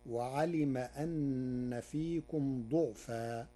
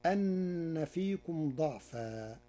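First: ضعفا with damma on the dad, slow; slow tajwid recitation; Warsh reading with damma. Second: Said in the usual way. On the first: Shown as a demonstration. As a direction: recite ضعفا as du'fan, slowly. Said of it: "بضم الضاد". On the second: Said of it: "قرأ ورش كلمة ضعفا".

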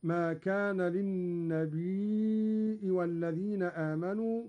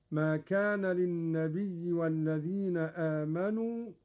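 First: للنبي with a long ya plus hamza; Qalun reading للنبيء. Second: للنبي ending in a plain long ya; reading للنبي. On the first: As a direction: stretch للنبي and close on a hamza. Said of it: "بهمز الياء هكذا". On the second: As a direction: recite للنبي without hamza. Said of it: "قرأ قالون بهمز الياء". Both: Shown as a demonstration.

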